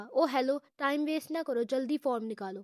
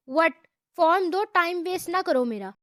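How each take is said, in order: First: Lightly voiced boredom, words tossed off; a touch of a bored girl brushing him aside. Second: Harsh tone. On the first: Girl tells the boy to hand over the form, mildly bored. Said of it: "بیزاری سے کہا". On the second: Girl demands the form from the rude boy, harsh and loud. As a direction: snap the order at him. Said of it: "سخت لہجے میں کہا". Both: A narrator's reading.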